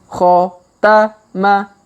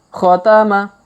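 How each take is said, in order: First: The word is read slowly, syllable by syllable. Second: The word is read quickly as one unit. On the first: "kita baca pelan-pelan" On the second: "kalau dipercepat"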